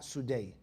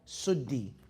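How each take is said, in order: First: The name ends with an 'eye' sound. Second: The name ends with an 'ee' sound. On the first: The speaker calls it wrong. "not Sudai" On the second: The speaker calls it right. "Suddi is the proper pronunciation of his name"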